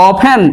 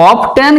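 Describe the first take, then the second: First: অফেন with the t silent; correct pronunciation. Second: অফটেন with the t sounded; wrong pronunciation. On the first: Teacher correcting often for students, অফেন with silent t. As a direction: say অফেন, f straight into the vowel. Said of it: "টি উচ্চারিত হচ্ছে না". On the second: Teacher showing what not to say, অফটেন with sounded t. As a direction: say অফটেন wrongly, a clear t after f. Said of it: "কিন্তু নয়". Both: Shown as a demonstration.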